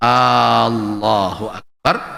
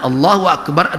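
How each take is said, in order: First: The opening vowel is drawn out long. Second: The opening vowel is kept short. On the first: It asks whether God is great. The speaker calls it wrong. "maka memanjangkan di awal seperti itu" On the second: It states that God is great. The speaker calls it right. "adalah pernyataan bahwa Allah Maha Besar"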